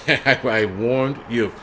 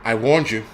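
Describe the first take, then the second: First: "warned you" stretched out at half speed; drawn-out warning. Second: Said in the usual way. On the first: Real, not acted. Streamer teasingly warns a scolding commenter, slow and drawn-out. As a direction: draw out "warned" slowly, then "you". Repeats warning slowly after laughing.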